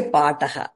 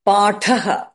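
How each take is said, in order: First: "pataha" said paa-ta-ha with plain t; no puff of air on the t in "pataha"; unaspirated wrong take. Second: "Pataha" said paa-tha-ha with a puff on t; long first a, then airy t in "Pataha"; aspirated th. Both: Shown as a demonstration. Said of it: "You can't say pataha".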